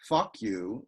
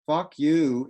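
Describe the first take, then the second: First: The stress is on the first word. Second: Both words are stressed equally. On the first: "with the stress on the first syllable, is a trochee" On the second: "is a spondy"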